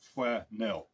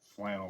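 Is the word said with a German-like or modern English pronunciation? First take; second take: German-like; modern English. First: The word is said with a German-like pronunciation. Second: The word is said with modern English pronunciation. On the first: This is how the word was said in earlier times. "their pronunciation was flanelle, I guess" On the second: This is how the word is said today. "not flannel like we say it today"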